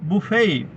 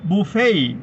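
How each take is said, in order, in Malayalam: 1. അവസാനത്തെ t നിശ്ശബ്ദമാണ്. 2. അവസാനത്തെ t നിശ്ശബ്ദമാണ്.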